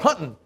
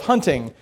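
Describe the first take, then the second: First: It is said in a rural accent, dropping the g. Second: It is said in a standard accent with the g.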